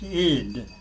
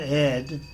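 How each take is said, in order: First: The ending sounds like 'id' with a short i. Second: The ending sounds like the name Ed. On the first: The speaker calls it right. "it's id" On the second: The speaker calls it wrong. "It's not ed, you know, like the name ed"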